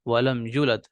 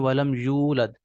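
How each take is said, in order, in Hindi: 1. y के बाद वाला स्वर छोटा पढ़ा जाता है। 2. y के बाद वाला स्वर लंबा पढ़ा जाता है। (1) "हम गलती कर देते हैं" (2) "या के बाद यहाँ पर वाव लिखी हुई है"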